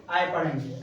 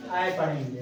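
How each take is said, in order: First: आए repeated with a falling tone; pronunciation repeat. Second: आए said as a clear falling ah-ay; pronunciation model. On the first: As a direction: restate आए plainly for the class. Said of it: "ठीक". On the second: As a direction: model आए with a firm falling vowel. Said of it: "क्या पढ़ेंगे?". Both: Shown as a demonstration.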